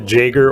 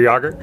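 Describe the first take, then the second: First: The name begins with a J sound. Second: The name begins with a Y sound. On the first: This is the pronunciation the parents use. "a little bit of a J" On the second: This is the pronunciation most people use. "people just know that name as Yager"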